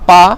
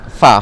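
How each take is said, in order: First: It begins with both lips pressed together. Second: It begins with upper teeth on lower lip. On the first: The speaker calls it wrong. "dia sebut huruf fa tapi sebut pa" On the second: The speaker calls it right. "gigi atas dengan bibir bawah"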